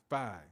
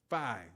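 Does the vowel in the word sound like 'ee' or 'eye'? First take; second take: eye; eye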